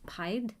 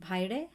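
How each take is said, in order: First: Bhide as one syllable, "pied", rising in question; tentative name pronunciation. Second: Bhide as two syllables, "BHAI-day", rising in question; tentative name pronunciation. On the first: Streamer retrying a viewer's name, Bhide said unsurely as "pied". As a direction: try "Bhide" with a silent final e, like "pied". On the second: Streamer guessing a viewer's name, Bhide said unsurely as "bhai-day". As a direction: try "Bhide" with an "ai" then a final "ay". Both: Real, not acted. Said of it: "I don't know how to say this".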